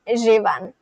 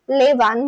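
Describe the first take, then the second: First: The word begins with a soft J-like sound. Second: The word begins with a clear L sound. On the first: The speaker calls it right. "You simply pronounce this as Jevan" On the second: The speaker calls it wrong. "you'd probably think that this is Levan, but it's not"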